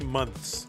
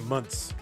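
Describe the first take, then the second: First: The th sound is clearly pronounced. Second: The th sound is dropped, sounding like munts. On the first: "I don't say months" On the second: "Like M U N T S. Like a like a hoodlum"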